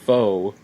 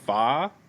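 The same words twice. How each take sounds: First: Pho is said with the Canadian pronunciation. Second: Pho is said with the non-Canadian pronunciation. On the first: This is how people in Canada say it. "what we call in Canada pho" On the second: This is how people elsewhere say it. "what the rest of the people call, I believe, pho"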